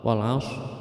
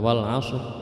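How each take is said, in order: The two takes are said the same way.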